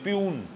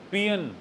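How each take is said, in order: First: The word sounds like 'pyoon'. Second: The word sounds like 'pee-un'. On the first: The speaker calls it wrong. "वो प्यून बोलते हैं" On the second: The speaker calls it right. "It's पियन only"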